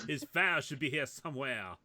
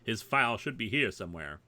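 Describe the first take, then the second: First: It is read in a put-on French accent. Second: It is read in a plain English accent. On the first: The speaker calls it right. "You're supposed to do French" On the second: The speaker calls it wrong. "you're doing English"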